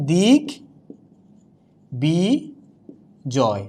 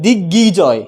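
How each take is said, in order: First: দিক বি জয় in three pieces, long pauses between; correct pronunciation. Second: দিগ্বিজয় with doubled g, "diggijoy"; wrong pronunciation. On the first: Teacher correcting the mistake, slow syllable demo. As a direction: sound out দিক, বি, জয় separately with clear b. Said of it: "এটা উচ্চারণটা হয়ে যাচ্ছে". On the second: Teacher showing a mistake to avoid, doubled-g mispronunciation. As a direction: say দিগ্বিজয় as "dig-gijoy", losing the b. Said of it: "তাহলে উচ্চারণটা কিন্তু হচ্ছে না". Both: Shown as a demonstration.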